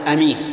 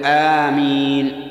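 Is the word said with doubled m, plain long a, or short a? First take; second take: short a; long a. First: The first vowel is short, with a single m. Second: The first vowel is long, with a single m. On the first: It means trustworthy. The speaker calls it wrong. "لا يصح أن تقول آمين لأن أمين صفة مشبهة من الأمن" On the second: It means answer the prayer. The speaker calls it right. "بل يقول آمين"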